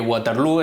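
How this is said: The name is pronounced with English sounds. "es la manera inglesa de pronunciarlo"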